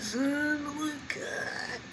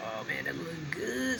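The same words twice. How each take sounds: First: High, drawn-out, stretching the words; savoring excitement. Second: Said in the usual way. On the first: Real, not acted. Admiring the chicken to viewers, high drawn-out delight. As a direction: savor it, voice jumping up high and slow.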